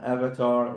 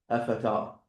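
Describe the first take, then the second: First: It is said with a v sound. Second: It is said with an f sound. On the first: "when we transliterated this word from avatar" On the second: "into the Arabic version, so the pronunciation will be avatar"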